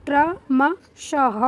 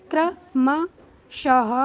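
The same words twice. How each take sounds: First: क्रमशः said again even slower and a bit louder, each syllable separate; slower and louder repeat. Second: क्रमशः drawn out slowly, ending in a breathy ह; slow teaching read. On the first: Teacher repeating the word for pupils, slower and louder. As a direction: repeat क्रमशः slowly syllable by syllable, final ह breathed. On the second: Teacher modelling the word for children, very slow. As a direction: say क्रमशः slowly, क्र clear and the final ह audible. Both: Shown as a demonstration. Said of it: "इसका उच्चारण होता है क्र".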